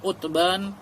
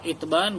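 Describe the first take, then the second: First: The first vowel is a u sound. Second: The first vowel is an i sound. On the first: "boleh di dhammah Utban" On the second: "boleh di kasrah Itban"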